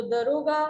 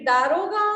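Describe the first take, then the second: First: दरोगा with a short "da" at the front; correct pronunciation. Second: दारोगा with a long "daa", loud; दारोगा said loudly with a long first vowel; wrong pronunciation. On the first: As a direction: say दरोगा as "duh-RO-gaa". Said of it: "सही शब्द क्या होगा". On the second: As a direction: stretch the first syllable: "DAA-ro-gaa". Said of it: "दारोगा शब्द अशुद्ध होता है". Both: Shown as a demonstration.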